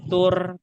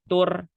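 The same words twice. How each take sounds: First: The r sound is thin and light. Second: The same.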